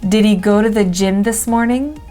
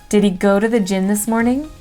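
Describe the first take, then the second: Both takes have the same delivery.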